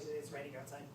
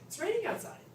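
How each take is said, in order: First: It sounds neutral, a plain statement of fact. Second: It sounds happy and pleased.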